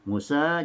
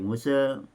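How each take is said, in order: First: The final vowel is a plain open a. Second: The final vowel is shifted slightly toward e. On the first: This is the ordinary reading of one tradition. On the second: This is the reading of another tradition.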